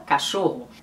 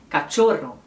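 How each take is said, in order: First: "cachorro" said the Brazilian way, CH as sh, RR as a throaty h; Brazilian pronunciation. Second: "cachorro" said the Spanish way, CH as tch, RR trilled; Spanish pronunciation. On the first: Teacher showing viewers how Brazilians say it, Brazilian pronunciation. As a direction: say "cachorro" as /kaʃoho/, Portuguese style. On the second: Teacher giving viewers the Spanish meaning word, Spanish pronunciation. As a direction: say "cachorro" as /katʃoro/ with a rolled RR. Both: Shown as a demonstration. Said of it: "no Brasil a gente fala cachorro".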